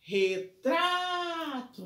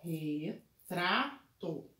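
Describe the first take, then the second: First: "Retrato" called out higher, the TRA held very long; calling out the word. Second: "Retrato" slow and low, split re, tra, to with pauses; syllable by syllable. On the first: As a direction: call Retrato like summoning someone, stretching tra. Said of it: "minha sílaba tônica é no tra". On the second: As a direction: break Retrato into three even, separate syllables. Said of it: "vamos separar a sílaba primeiro". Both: Shown as a demonstration.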